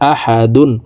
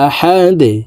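First: The word ends with a full -un syllable. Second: The word ends on a stopped d with a bounce. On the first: "দাল দুই পেশ দুন" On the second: "ওয়াকফর ক্ষেত্রে সাকিন করে ফেলবো ... ধাক্কা দিয়ে উচ্চারণ করব"

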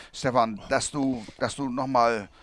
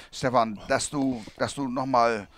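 Both takes have the same delivery.

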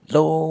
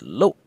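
First: The vowel has a high, raised pitch. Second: The vowel is short and cut off abruptly. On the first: The speaker calls it wrong. "It should not be lo with a higher raised tone as if you're hollering somebody" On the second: The speaker calls it right. "a short, abrupt N in your vowel"

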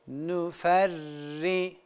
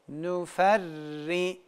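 The two takes are said the same way.

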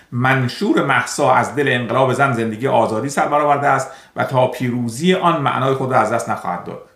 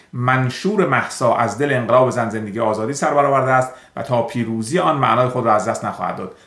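Both takes have the same delivery.

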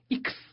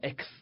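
First: The letter is said as in German. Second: The letter is said as in English. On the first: The speaker calls it right. "是X" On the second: The speaker calls it wrong. "不是英语的X"

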